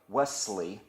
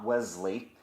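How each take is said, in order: First: The middle consonant is a hissing S sound. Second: The middle consonant is a buzzing Z sound. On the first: The speaker calls it right. "the way Americans pronounce it" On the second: The speaker calls it wrong. "not Wesley"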